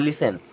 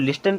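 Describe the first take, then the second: First: The t sound is left silent. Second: The t sound is clearly pronounced. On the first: The speaker calls it right. "Teacher बताते हैं कि वो लिसन होता है" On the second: The speaker calls it wrong. "हमेशा आप उसको लिस्टन पढ़ते होंगे"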